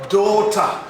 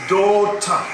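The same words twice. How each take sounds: The two takes are said the same way.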